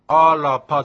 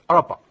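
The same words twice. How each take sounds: First: The r is fully pronounced with a vowel. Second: The r is swallowed, barely pronounced. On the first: The speaker calls it wrong. "アラパじゃなくて" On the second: The speaker calls it right. "R ですから飲み込む感じですね"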